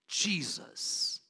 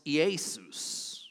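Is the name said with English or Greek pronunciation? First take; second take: English; Greek. First: The name is said with English pronunciation. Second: The name is said with Greek pronunciation.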